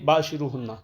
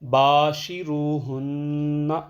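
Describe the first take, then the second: First: The first vowel is rushed and short. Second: The first vowel is drawn out long. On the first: The speaker calls it wrong. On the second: The speaker calls it right.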